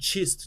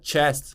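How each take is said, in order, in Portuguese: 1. A vogal soa próxima de um 'i'. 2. A vogal soa como um 'e' simples.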